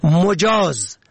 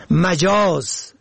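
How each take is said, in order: First: مجاز said "mojaaz", rounded o first; damma on first letter. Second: مجاز said slowly "majaaz", open a first; fatha on first letter. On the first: Teaching the word for permitted, short o vowel. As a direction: say مجاز as "mo-jaaz". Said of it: "به ضم اول". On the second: Teaching the word for unreal, short a vowel. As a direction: say مجاز as a drawn-out "ma-jaaz". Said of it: "به فتح اول". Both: Shown as a demonstration.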